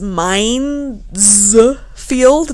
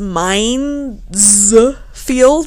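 First: An s sound comes before 'field'. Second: An s sound comes before 'field'.

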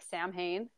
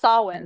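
First: The word is said the way it looks spelled. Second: The word is said unlike its spelled letters. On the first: The speaker calls it wrong. "I always pronounce it like Samhain" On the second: The speaker calls it right. "But it's Samhain"

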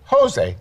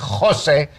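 First: It starts with an American English 'h' sound. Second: It starts with the Spanish throaty jota sound.

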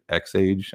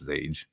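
First: The name starts with the letter sound 'ex'. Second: The name starts with a plain 'z' sound. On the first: "Is it X-Age?" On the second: "I think it's Zage. Sounds cooler to say Zage"

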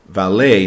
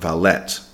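First: The final T sound is silent. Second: The final T sound is pronounced. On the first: The speaker calls it right. "we don't say the T in valet. We say valet" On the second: The speaker calls it wrong. "not valet"

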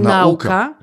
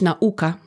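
First: The stress falls on the first syllable. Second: The stress falls on the second syllable. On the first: The speaker calls it wrong. "nie nauka" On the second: The speaker calls it right. "Akcent powinno być nauka"

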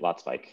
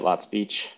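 First: The second part rhymes with 'spike'. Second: The second part rhymes with 'speech'. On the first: This is the pronunciation going back to German roots. "go back to German roots and start pronouncing it Lot Spike" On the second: This is the pronunciation used while growing up. "I grew up pronouncing it Lot Speech"

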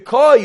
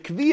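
First: The word is said as koy. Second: The word is said as kvee.

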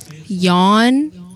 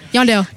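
First: The name is said slowly and drawn out. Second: The name is said quickly.

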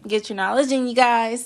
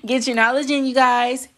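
First: The words are said at normal volume. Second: The words are said at loud volume. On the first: "Say it again" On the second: "Say it louder for the people in the back"

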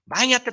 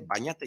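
First: It is shouted angrily. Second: It is said calmly and kindly.

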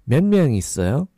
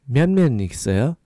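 The two takes are said the same way.

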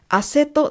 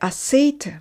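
First: The second syllable has a short 'eh' vowel. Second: The second syllable has an 'ay' vowel. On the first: The speaker calls it wrong. "アセトではなく" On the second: The speaker calls it right. "アセイトですね"

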